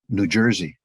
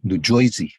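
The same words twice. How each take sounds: First: It is said with a standard American pronunciation. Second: It is said with a local New Jersey pronunciation.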